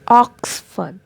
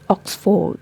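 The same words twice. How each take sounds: First: No R sound is pronounced in the word. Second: An R sound is pronounced in the word. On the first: The speaker calls it right. "letter O has a sound and letter R is silent" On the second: The speaker calls it wrong. "Most of the people pronounce it like Oxford, but that is wrong pronunciation"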